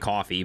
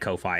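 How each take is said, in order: First: It is said exactly like the word coffee. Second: It is said as two parts, koh and fye. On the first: "I think it's actually Coffee" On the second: "but I say Ko-Fi"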